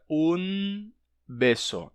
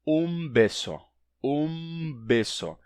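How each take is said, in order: First: Un beso with a clear N before B; un, tongue touch, then beso; unassimilated un beso. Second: Un beso with the N turned into M; un beso, lips closed before B; assimilated um beso. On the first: Teacher showing the wrong Spanish un beso. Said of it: "não fica un beso". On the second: Teacher showing the right Spanish un beso. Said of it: "e sim". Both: Shown as a demonstration.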